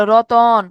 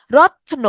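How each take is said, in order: First: রতন in two syllables, the second drawn out; inserted vowel. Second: রত্ন with ত and ন run straight together; joined consonants. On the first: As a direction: open up ত and ন with a long vowel in রতন. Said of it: "মাঝখানে একটা নতুন অধ্বনি আসতেছে". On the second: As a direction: close on the ত, then straight into ন in রত্ন. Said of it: "আমরা একসাথে উচ্চারণ করতেছি". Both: Shown as a demonstration.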